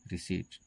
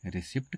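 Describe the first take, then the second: First: रिसीट with a long EE and silent P; correct pronunciation. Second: रिसिप्ट said with the P sounded; common mispronunciation. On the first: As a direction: say रिसीट, no P before the final T. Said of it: "इसका सही उच्चारण होता है". (रिसीट, लंबी ई और बिना प के सही उच्चारण) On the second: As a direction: pronounce रिसिप्ट wrongly, voicing a P before the T. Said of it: "जो कि बिल्कुल गलत है". (रिसिप्ट में प की आवाज़ के साथ गलत उच्चारण) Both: Shown as a demonstration.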